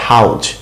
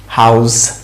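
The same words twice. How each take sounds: First: "হাউজ" with a hard Bengali j at the end. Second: "হাউস" with a long buzzing z at the end; English z ending. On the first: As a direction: close "হাউজ" on j, as in "hauj". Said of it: "জ আছে". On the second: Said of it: "এরকম একটা উচ্চারণ". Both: Shown as a demonstration.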